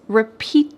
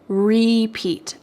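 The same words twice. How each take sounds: First: The stress falls on the second syllable. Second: Both syllables get equal stress. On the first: It is the verb, asking for something again. "it's the final part of the word that's emphasized" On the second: It is the noun, playing a song over and over. "Both of those words are going to get equal emphasis"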